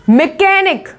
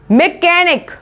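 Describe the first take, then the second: No difference in how they are said.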